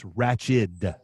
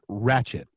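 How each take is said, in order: First: The word ends with a d sound. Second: The word ends with a t sound. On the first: The speaker calls it right. "It's ratched. D" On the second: The speaker calls it wrong. "It's not ratchet"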